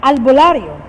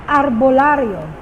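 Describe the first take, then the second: First: "albolario" with an L in place of the R. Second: "arbolario" with a rolled R in the middle. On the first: Teacher giving the L variant, a bit louder. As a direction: say "albolario" with the L sound. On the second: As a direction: say "arbolario" with the R sound. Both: Shown as a demonstration. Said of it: "Or sometimes you say".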